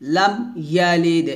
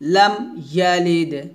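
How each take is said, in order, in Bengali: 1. প্রথম শব্দটি পরিষ্কারভাবে 'm' ধ্বনিতে শেষ হয়। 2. প্রথম শব্দটি পরিষ্কারভাবে 'm' ধ্বনিতে শেষ হয়।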